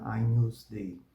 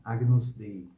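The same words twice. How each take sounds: First: "Agnus Dei" with GN as the Portuguese NH sound; Roman Latin pronunciation. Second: "Agnus Dei" with a hard G before N, as in Portuguese; Brazilian habit Latin. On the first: Teacher gives the Roman church way, GN said as NH. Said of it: "diferente da pronúncia romana Agnus Dei". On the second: Teacher shows the Brazilian way of saying it, G and N apart. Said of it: "tende a pronunciar Agnus Dei". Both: Shown as a demonstration.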